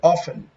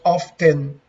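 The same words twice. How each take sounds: First: The T sound is left silent. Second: The T sound is clearly pronounced. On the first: The speaker calls it right. "but often" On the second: The speaker calls it wrong. "You don't pronounce often"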